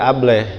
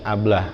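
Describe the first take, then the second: First: The final vowel sounds like an 'eh'. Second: The final vowel sounds like an open 'ah'. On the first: "Orang Betawi jadi Ableh gitu ya" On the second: "anggap itu logat Indonesia"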